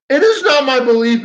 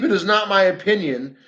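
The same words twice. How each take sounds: First: IS punched high and loud; "It is not my belief" with a hard push on "is"; emphatic denial. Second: Said in the usual way. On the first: Real, not acted. Denying a claim about her.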